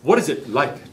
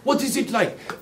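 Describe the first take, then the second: First: It is said in a plain accent. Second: It is said in a French accent.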